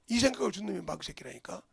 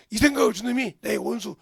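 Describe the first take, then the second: First: Said in the usual way. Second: Loud preaching cry. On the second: Shown as a demonstration. Pastor crying out against the devil, loud. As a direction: repeat it louder, much louder. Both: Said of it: "phrase repeated louder".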